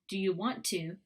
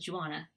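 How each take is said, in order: First: Each word is said fully and separately. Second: The words merge into a short j-starting chunk.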